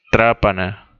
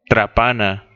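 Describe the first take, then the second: First: Trápana stressed on the first syllable, TRÁ-pa-na; esdrújula: TRÁ-pa-na; corrected stress. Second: Trapana stressed on the middle syllable, tra-PA-na; llana: tra-PA-na; misplaced stress. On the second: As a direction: read trapana as a flat llana word, tra-PA-na. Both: Real, not acted. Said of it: "Digo, trápana".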